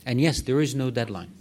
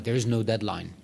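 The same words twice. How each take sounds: First: Louder, leaning hard on yes; firm emphatic repeat. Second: Said in the usual way. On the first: Shown as a demonstration. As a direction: drive home "yes, there is no deadline" as settled fact. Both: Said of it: "let me be very direct here".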